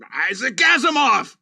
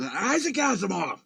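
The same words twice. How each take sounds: First: Yelled curse, loud and high; waking-up outburst; angry shout. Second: Half-voiced swear-word delivery of Isaac Asimov; mock angry curse. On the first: Retold or imitated. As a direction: shout it like a swear word. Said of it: "that's how I woke up". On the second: Shown as a demonstration. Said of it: "sounds like you get really mad".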